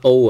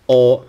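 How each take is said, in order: First: "O" gliding like English oh; wrong, diphthong "O"; oh vowel. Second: "O" as an open aw, like in law; right "O", rhyming with law; aw vowel. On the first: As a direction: say "O" as the letter, the mistaken sound. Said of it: "I'm not O". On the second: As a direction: open "O" into a pure aw without a glide. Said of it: "like in law". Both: Shown as a demonstration.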